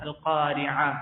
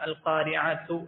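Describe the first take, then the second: First: The word ends softly with an 'h' sound. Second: The word ends with a full 'tu' syllable. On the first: The speaker calls it right. "ഹ എന്നുള്ള ശബ്ദമാണ് വരിക" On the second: The speaker calls it wrong. "അൽ ഖാരിഅതു എന്ന് നമ്മൾ ആരും ഓതുന്നില്ലല്ലോ"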